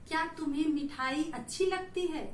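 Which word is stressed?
none. No word is given special stress. "ये साधारण शब्द में हमने बोला"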